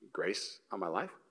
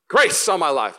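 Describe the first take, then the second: First: It is said quietly and hesitantly. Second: It is shouted loudly and boldly.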